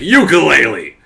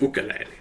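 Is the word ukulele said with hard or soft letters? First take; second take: hard; soft. First: The letters are pronounced strong and hard. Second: The letters are pronounced soft and light. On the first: The speaker calls it wrong. "we pronounce everything with strong letters" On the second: The speaker calls it right. "But it's ukulele"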